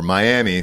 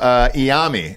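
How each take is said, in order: First: The word begins with a clear M sound. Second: The word begins without the first M sound. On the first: This is how outsiders say it. The speaker calls it wrong. "for the rest of you losers who actually pronounce the M" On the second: This is how people who know the city say it. The speaker calls it right. "you don't pronounce that first M"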